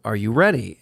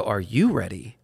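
First: Plain question with the weight on "ready"; stress on READY. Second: Low question, leaning on "you"; stress on YOU. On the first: Wife asks him outside Starbucks, stressing "ready". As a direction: land on "ready" as you ask. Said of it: "Candy says". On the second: Husband turns the question back on wife, stressing "you". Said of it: "I go". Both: Retold or imitated.

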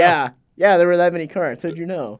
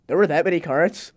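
First: Louder, flat falling statement; deadpan sarcastic answer to the boss; sarcastic confirming. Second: Mock-innocent rising question, a bit louder; wide-eyed fake surprise at the cart count. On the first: Retold or imitated. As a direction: confirm it dryly, like it's obvious. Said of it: "I'm like". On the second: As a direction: play dumb and ask it up at the end. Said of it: "walk back in and be like".

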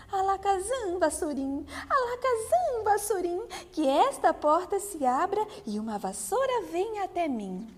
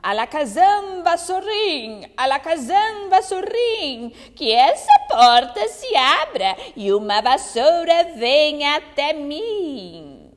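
First: A fairy trying the spell; fairy casting spell. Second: Loud, chanting witch incantation; witch's spell. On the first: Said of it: "proferiu as palavras mágicas". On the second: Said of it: "aquela bruxa dizendo". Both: Acted.

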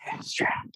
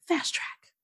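First: Hushed echo of the name; mock dramatic whisper. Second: Whispered hero-name reveal; mock dramatic whisper. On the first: Co-host echoing the whispered hero name, mock dramatic whisper. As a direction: whisper it back teasingly. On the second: Retelling the heroine naming herself, mock dramatic whisper. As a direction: breathe it out like a big reveal.

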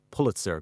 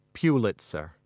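First: Pulitzer said as PULL-it-zer, short u as in pull; first-syllable Pulitzer. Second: Pulitzer said as PYOO-lit-zer, with a y glide; old Pulitzer pronunciation. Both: Acted. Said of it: "I've been pronouncing it wrong all these years".

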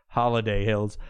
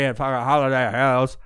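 First: Said in the usual way. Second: "Holiday Hills" with Hills stretched toward "howls"; put-on pronunciation. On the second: [name] tells friends about the party, drawling "Hills" as "howls". [name]'s voice, then repeated plainly.

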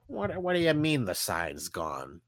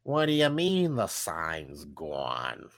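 First: Said in the usual way. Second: Slow, low boss voice; angry boss. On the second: Acted. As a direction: drag it out like a fed-up boss. Angry boss scolding Arthur.

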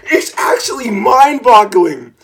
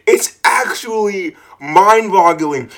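First: Higher, exasperated marvel; amazed. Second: Said in the usual way. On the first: Real, not acted. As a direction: marvel at the stupidity. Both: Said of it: "I'm actually impressed".

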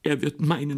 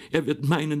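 First: Er wird meinen with meinen stressed and falling. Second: Er wird meinen with Er stressed and meinen falling away. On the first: Sister cries out, stressing meinen. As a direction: lean on meinen, not on Er. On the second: Sister repeats herself, now stressing Er. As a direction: lean on Er this time. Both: Acted. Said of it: "schrie Marie".

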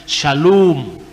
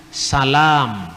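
First: "Shalom" with the O stretched long. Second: "Salam" with s, not sh, and a long A. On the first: Lecturer stressing the long O in Hebrew, pronunciation demo. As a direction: hold the O in "Shalom" clearly. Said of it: "Jadi O-nya yang panjang". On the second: Lecturer showing how shalom becomes salam in Arabic, pronunciation demo. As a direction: stretch the A in "Salam" and start on a plain s. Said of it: "menjadi A panjang". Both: Shown as a demonstration.

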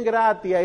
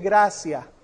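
First: GRATIA said GRA-ti-a, hard t. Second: GRACIA said GRA-sia; gratia with S. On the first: Teacher quoting how some people say it, gratia with a hard t. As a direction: keep a true t in gratia. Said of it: "Que dicen gratia". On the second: Teacher showing how it really sounds, gracia with an s. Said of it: "Como si fuera S". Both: Shown as a demonstration.

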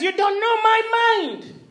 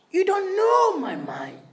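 First: Slow, louder, higher rebuke stressing "my"; Jesus scolding his disciples, firm and slow; stern rebuke. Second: Hissed rebuke, no voice at all; intense whisper. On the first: Jesus rebuking the disciples, stern and slow. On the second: Preacher repeating Jesus's rebuke as a stage whisper. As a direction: drive it home in a fierce whisper. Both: Retold or imitated. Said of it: "He's rebuking them".

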